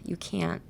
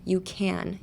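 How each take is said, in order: First: CAN'T softly, nasal cut off by a silent t; stopped can't. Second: CAN softly, ending on a sounded n; open can. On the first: Teacher testing the difference softly, stopped can't. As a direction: cut the end of can't short. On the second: Teacher testing the difference softly, open can. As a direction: let the n of can trail on. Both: Shown as a demonstration. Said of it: "And the difference is".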